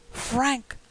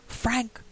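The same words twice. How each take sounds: First: Higher, eerie ghostly cry; calling out louder. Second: Raised ghostly call, higher; a cry from outside the door. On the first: Dead wife calling her husband again, rising eerie cry. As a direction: call the name again, more urgent. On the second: Dead wife calling her husband through the door, mild ghostly cry. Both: A narrator's reading. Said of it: "cried the voice".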